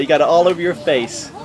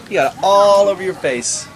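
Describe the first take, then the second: First: Said in the usual way. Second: Teasing emphasis on a long "aaall"; stress on ALL. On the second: Real, not acted. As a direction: stretch the word "all" for emphasis. Repeated with drawn-out word.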